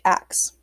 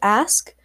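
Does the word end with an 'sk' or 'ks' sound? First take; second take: ks; sk. First: The word ends with a k then s sound. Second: The word ends with an s then k sound. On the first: "people who use BVE would say, like, ax, instead of ask" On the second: "the word is ask"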